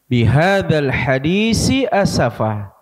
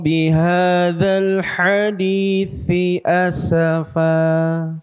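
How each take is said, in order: First: Both words use an s sound. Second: The first word uses th, the second s. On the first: The speaker calls it wrong. "Jangan sampai sama-sama entah dibaca tha atau dua-duanya dibaca sa" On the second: The speaker calls it right. "kita baca illam yu'minu bihadzal hadithi asafa"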